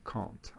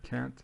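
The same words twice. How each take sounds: First: It is said with a British accent. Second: It is said with an American accent. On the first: "Avec l'accent britannique, ce sera plutôt quelque chose comme can't" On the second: "avec l'accent américain, ça donne can't"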